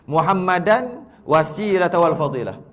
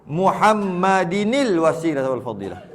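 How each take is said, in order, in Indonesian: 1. Muhammad berakhiran -an sebelum wasilah. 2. Muhammad berakhiran -inil sebelum wasilah.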